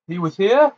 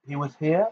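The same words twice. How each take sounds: First: Loud, high startled shout. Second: Said in the usual way. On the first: Acted. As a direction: shout it in disbelief. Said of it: "shouted a scarlet-robed man".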